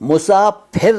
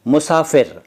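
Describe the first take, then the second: First: The middle consonant is an aspirated p sound. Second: The middle consonant is a clear f sound. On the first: The speaker calls it wrong. "मुसाफिर नहीं बोला मैंने" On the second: The speaker calls it right. "जहाँ फ बोलना है वहाँ फ बोलिए"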